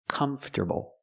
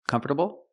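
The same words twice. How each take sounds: First: Three syllables: comf, ter, bull. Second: Four syllables, with the T as a quick D. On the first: "another pronunciation that's more common... you have three syllables" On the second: "changing the T to a fast D"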